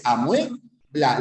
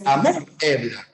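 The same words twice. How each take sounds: First: "amuebla" as a-MUÉ-bla, UE in one syllable; stress on E. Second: "amuebla" broken into a-MÚ-ebla, U stressed apart from E. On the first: Teacher giving students the correct form, stressed UE diphthong in "amuebla". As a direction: slowly stress the E in "amuebla", gliding from U. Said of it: "la fuerza de voz en la abierta". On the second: Teacher showing students what we don't say, stressed on U in "amuebla". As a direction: say "amuebla" wrongly as a-MÚ-ebla, hiatus after U. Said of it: "la fuerza de voz no va en la U". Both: Shown as a demonstration.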